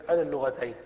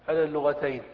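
No difference in how they are said.

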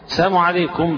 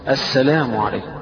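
First: The greeting is slurred with the L dropped. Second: The greeting is pronounced clearly with the L. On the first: A wish of death. The speaker calls it wrong. "دعا عليه بالهلاك" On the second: A wish of peace. The speaker calls it right. "إذا سلمت فأحسن النطق بالسلام"

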